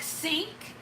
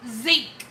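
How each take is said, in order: First: Said in the usual way. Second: "zink", sink begun with a buzzing z; husband's country pronunciation. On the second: Retold or imitated. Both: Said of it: "he says zink".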